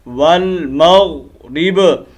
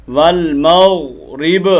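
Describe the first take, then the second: Both takes have the same delivery.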